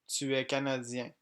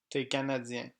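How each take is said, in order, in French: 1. 'Tu es' se prononce en entier. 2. 'Tu es' se réduit à 'té'. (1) "Français écrit" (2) "Tu es est prononcé T"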